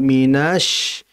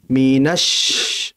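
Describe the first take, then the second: First: The vowel before sh is drawn out. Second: The vowel before sh is kept short. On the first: The speaker calls it wrong. "Jangan minash, minash, jangan memanjang" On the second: The speaker calls it right. "Langsung dimasukkan minash, langsung"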